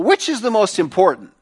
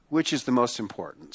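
First: Questioning emphasis. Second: Soft repeated question. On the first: Preacher poses the key question. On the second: Preacher repeats question softly. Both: Real, not acted.

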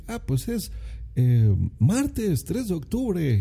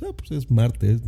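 First: High, slow, over-precise stiff reply; overly formal answer. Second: Said in the usual way. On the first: Pretend. Answering a stranger in an elevator, high, slow and over-formal. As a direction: spell out the full date like a stiff announcer. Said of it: "no le vas a decir".

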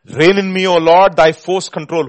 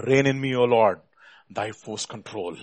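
First: Loud, ringing preacher's prayer; impassioned plea. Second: Said in the usual way. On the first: Real, not acted. Preacher praying for the Lord's control, impassioned plea. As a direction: proclaim each phrase forcefully. Repeats line at full force.

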